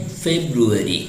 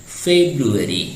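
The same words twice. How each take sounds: No difference in how they are said.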